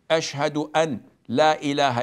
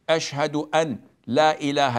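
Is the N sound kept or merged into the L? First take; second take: kept; kept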